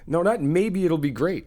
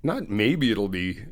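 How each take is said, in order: First: Not punched higher and louder with a rise; stress on NOT. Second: Said in the usual way. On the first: Shown as a demonstration. Correcting her friend's doubt, stress on not. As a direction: hit not hard and lift it.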